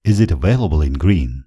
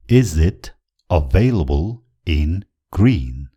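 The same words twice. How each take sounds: First: Said in the usual way. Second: Slow, broken into separate chunks with pauses; word-by-word model. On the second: Shown as a demonstration. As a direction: spell it out for learners, one piece at a time. Teacher models phrase word by word. (शब्द-शब्द छुट्याएर बिस्तारै)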